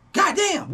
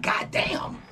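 First: Much higher, voiced God damn in disbelief; mock exclaim. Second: Breathy exasperated whisper of disbelief; mock whisper. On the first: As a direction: exclaim it up high, no whisper. Repeats exclamation out loud. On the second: Imagined reply to obsessive critic.

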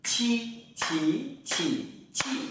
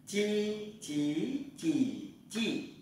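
First: "Chi" said with a strong puff of air from the belly; strongly aspirated q. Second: "Chi" said with the tongue flat, no puff of air; light, soft "Chi", "chí", "chỉ", "chi"; soft unaspirated j. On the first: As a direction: push hard breath through "Chi", "chí", "chỉ", "chi". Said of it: "Ta tập thử chữ Quy nhé". ("Chi" bật hơi mạnh) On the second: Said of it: "Mình thử chữ Di nhé". ("Chi" mềm, không bật hơi) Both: Shown as a demonstration.

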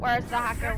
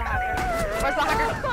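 First: Said in the usual way. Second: Squeaky, much higher call; high-pitched calling. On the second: Real, not acted. Repeated search call.

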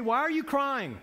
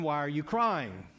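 First: Said in the usual way. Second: Blunt man asking. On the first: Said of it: "these angels say". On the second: Retold or imitated. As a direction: lower and slow, a lightly voiced clueless man. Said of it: "only a man would ask a woman".

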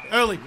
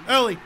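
Both takes have the same delivery.

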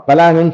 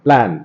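First: பிளான் broken into pa-lan; split-cluster mispronunciation. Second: பிளான் as one syllable, plan; fuse p and l at the start of பிளான்; joined pl cluster. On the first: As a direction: put an extra "a" between p and l in பிளான். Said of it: "சொல்ல மாட்டோம்". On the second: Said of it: "இதை பிளான் தானே சொல்றான்". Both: Shown as a demonstration.

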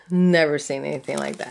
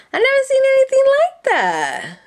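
First: Said in the usual way. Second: Very high, louder amazed squeal. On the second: Real, not acted. Crafter amazed by a new trim, high squeal.

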